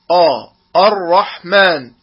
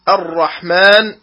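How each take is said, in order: First: Dark 'o'-like آ, then الرحمن begun the same way, slow; heavy hamza. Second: الرحمن opening on a thin, fronted 'a'; light hamza. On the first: Tajweed teacher shows the mistake, الرحمن with heavy hamza. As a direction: thicken the first vowel of الرحمن into 'aw'. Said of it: "وهذا خطأ". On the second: Tajweed teacher models الرحمن properly, light opening hamza. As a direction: start الرحمن lightly before the heavy raa. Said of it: "تفخيم الهمزة". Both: Shown as a demonstration.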